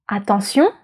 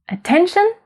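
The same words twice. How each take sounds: First: French "attention", last syllable stressed; French final stress. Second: English "attention", uh-TEN-shun, pitched higher; English pronunciation. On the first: Teacher showing learners where stress falls, French final stress. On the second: Teacher contrasting English with French, English pronunciation. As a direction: say "attention" as an English word with a high, questioning lift. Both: Shown as a demonstration. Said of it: "it's on the last one".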